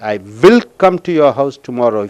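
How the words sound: The word will is stressed. The speaker is sure to come. "If you stress on will"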